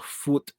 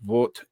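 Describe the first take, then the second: First: The name begins with an F sound. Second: The name begins with a V sound. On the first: This is the German pronunciation. "is pronounced uh, Foot in German" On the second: This is the English pronunciation. "it's like Vot in English"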